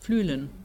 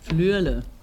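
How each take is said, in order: First: It is said in Standard German, ending in -en. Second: It is said the Swiss way, without final -n.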